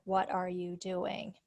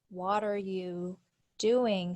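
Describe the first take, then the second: First: Said in the usual way. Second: "what are you doing" run together like "water you doing"; linked "what are you doing". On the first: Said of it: "sound funny for". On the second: Shown as a demonstration. Teacher showing students how linked sounds turn the phrase into "water you", run together. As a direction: blend the words into one linked phrase. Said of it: "combining sounds together makes".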